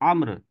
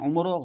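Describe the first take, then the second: First: It begins with 'a' and ends in 'r'. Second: It begins with 'u' and ends in 'o'. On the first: The speaker calls it right. "आइन पे जबर है" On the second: The speaker calls it wrong. "उमरो गलत है"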